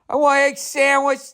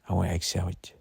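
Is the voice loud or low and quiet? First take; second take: loud; low and quiet. First: It is said in a loud voice. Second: It is said in a lowered, quieter voice.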